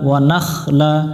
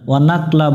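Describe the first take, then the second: First: The consonant before 'la' is a raspy kh. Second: The consonant before 'la' is a plain k. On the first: The speaker calls it right. "ওয়া না মিলবে খয়ের সাথে নাখ" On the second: The speaker calls it wrong. "এখানে খটা অনেকজনে আমরা উচ্চারণ করি না, ওয়ানাকলা বলি"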